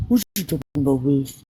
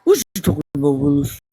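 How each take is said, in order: First: Low mock-suspicious catchphrase delivery; catchphrase imitation. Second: Low, punched TV catchphrase; catchphrase imitation. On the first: Quoting a cute TV character's line, imitating him. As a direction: lower your pitch and imitate the TV catchphrase. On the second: Repeating the beloved TV line, exaggerated imitation. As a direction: imitate it lower, hitting the first word hard. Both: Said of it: "I used to love his lips when he said that".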